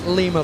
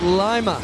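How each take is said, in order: First: The first vowel is an 'ee' sound. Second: The first vowel is a long 'eye' sound. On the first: The speaker calls it wrong. "not Lima" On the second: The speaker calls it right. "pronounced with a long I"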